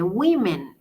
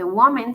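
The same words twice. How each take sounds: First: "women" said slowly as "wimen", with an i sound; correct plural. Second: "woman" said with the singular "wo-" vowel, the wrong plural; the mistaken plural, said as "woman". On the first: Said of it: "se dice women". ("women" pronunciado "wimen", despacio) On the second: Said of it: "no se dice woman". ("woman" mal pronunciado como plural) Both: Shown as a demonstration.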